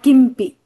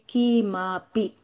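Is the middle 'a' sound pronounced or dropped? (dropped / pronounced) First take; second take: dropped; pronounced. First: The middle 'a' after m is dropped. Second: The middle 'a' after m is fully pronounced. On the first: The speaker calls it wrong. "not kimpi" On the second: The speaker calls it right. "it must be kimapi"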